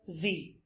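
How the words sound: The letter name is said as 'zee'. "Americans call it Z"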